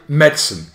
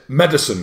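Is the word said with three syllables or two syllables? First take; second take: two; three. First: The word is said with two syllables. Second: The word is said with three syllables. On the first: The speaker calls it right. "It's two syllables. You say medicine" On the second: The speaker calls it wrong. "Some people pronounce it medicine, three syllables. It's a big fat no"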